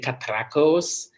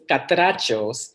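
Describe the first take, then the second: First: The middle consonant is a hard k sound. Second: The middle consonant is a ch sound. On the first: The speaker calls it wrong. "they think the C and H ... more like in Italian terms" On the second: The speaker calls it right. "so it's Catrachos"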